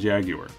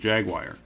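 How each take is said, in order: First: The word is said with a British pronunciation. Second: The word is said with an American pronunciation. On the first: "It just sounded more appropriate to say" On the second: "for most of my life, I pronounced it as"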